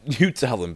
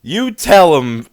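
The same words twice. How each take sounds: First: Said in the usual way. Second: Shouted, slowed hype call; cheering the rapper on, loud. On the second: Real, not acted. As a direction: egg him on, loud. Hyping up the rapper.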